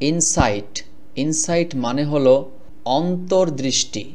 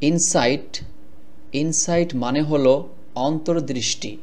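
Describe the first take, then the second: Both takes have the same delivery.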